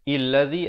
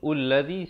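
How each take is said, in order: First: The word begins with an i vowel. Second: The word begins with a u vowel.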